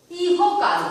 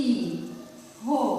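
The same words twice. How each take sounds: First: Said in the usual way. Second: ইহকাল very slowly and softly, in separate syllables; syllable-by-syllable pronunciation. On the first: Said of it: "একটি শব্দ". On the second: Shown as a demonstration. Teacher dictating the pronunciation while writing, syllable by syllable. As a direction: break ইহকাল apart with pauses between syllables. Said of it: "উচ্চারণে কি লিখছি?".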